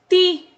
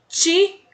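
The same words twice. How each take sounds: First: The T is light, with emphasis on I. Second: The T is said as in Portuguese. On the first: The speaker calls it right. "dando ênfase no I, pronunciando o T com leveza" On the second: The speaker calls it wrong. "igual no português"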